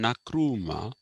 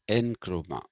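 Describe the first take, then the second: First: The name begins with a full 'na' syllable. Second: The name begins with an 'en' sound. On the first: "Some people call him Nakrumah" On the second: "some people call him Nkrumah. Neither of them is the correct pronunciation"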